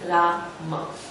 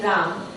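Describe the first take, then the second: First: The word ends with a final a vowel. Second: The word ends on the m, no final vowel. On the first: "we say Rama" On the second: "we don't say Ram"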